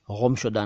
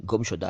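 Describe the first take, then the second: First: गुमशुदा as ghumshuda; wrong nukta sound. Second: गुमशुदा as gumshuda, clean g; correct hard G. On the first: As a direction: scrape the first sound of गुमशुदा in the throat. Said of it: "गुमशुदा नहीं है". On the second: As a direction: say गुमशुदा with a stopped g. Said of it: "गुमशुदा है". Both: Shown as a demonstration.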